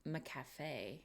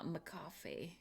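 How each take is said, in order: First: McCafe as muh-kaff-AY, quieter; testing a pronunciation. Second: McCafe as muh-KOFF-ee, soft; testing another pronunciation. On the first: Streamer sounds out the brand for viewers, trial pronunciation. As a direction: say McCafe ending in AY, like café. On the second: Streamer sounds out the brand for viewers, another trial pronunciation. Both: Real, not acted. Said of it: "How do you say it?".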